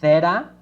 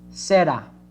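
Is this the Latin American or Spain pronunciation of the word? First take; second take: Spain; Latin American. First: It is said with a Spain accent. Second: It is said with a Latin American accent. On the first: "The one from Spain" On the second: "which is more common in America"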